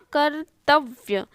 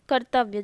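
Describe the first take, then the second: First: कर्तव्य split, "kar... tav... vya"; slow, separated parts in कर्तव्य; broken into parts. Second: Said in the usual way. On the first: Shown as a demonstration. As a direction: dictate कर्तव्य piece by piece. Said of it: "तो वो होगा". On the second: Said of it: "तो वो होगा कर्तव्य".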